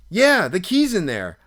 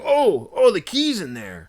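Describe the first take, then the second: First: Loud, high yeah, falling away; retold exasperated confirmation; exasperated echo. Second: High, loud oh, then dropping; surprised realization. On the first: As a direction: throw it back as the obvious. Teller scornfully echoes friend's discovery. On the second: Retold or imitated. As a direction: imitate a friend's sudden dawning surprise. Friend suddenly spots the key.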